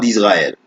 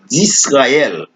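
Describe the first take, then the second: First: The s is pronounced as a buzzing z. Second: The s is pronounced as a hissing s. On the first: The speaker calls it wrong. "Son faute liée le prononcer comme ça en français" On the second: The speaker calls it right. "C'est S, c'est pas il pas prononcé comme Z"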